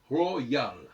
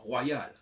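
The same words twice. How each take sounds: First: The first vowel is a clear o sound. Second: The first vowel sounds like wa. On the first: The speaker calls it right. "je dois prononcer royal" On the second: The speaker calls it wrong. "et pas royal, parce qu'il n'y a pas de A"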